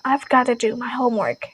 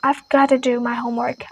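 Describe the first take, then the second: First: The words are reduced and run together. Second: The same.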